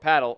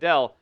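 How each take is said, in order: First: The word is said in a plain English way. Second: The word is said with a foreign-style accent.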